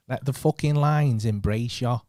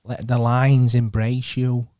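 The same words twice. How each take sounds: First: Slower, louder second take as Manny; Manny impression. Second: Slow, drawn-out Manny voice on "Let the lines embrace you"; Manny impression. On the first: Trying the Manny voice again for his mate, slow and loud. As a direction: lean into Manny harder, drawn out. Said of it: "That was well better". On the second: Mimicking Manny for his mate, slow drawn-out voice. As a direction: stretch each word like Manny would. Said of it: "what should I say in Manny?".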